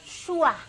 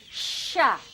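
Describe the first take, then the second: First: A rounded sh sound with lips pushed out. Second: A plain sh sound with no lip rounding. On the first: The speaker calls it wrong. "bukan yang monyong-monyong, syua" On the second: The speaker calls it right. "Harusnya yang benar adalah tengah lidah. Jadi sya"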